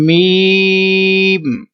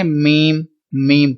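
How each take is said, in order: First: میم held three counts, very slow; steady hummed میم; long correct میم. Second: میم clipped Urdu style; short everyday میم; wrong short میم. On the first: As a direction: stretch میم three seconds. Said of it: "لہذا اس کو ہم نے پڑھنا ہے". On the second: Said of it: "تو یہ طریقہ درست نہیں". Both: Shown as a demonstration.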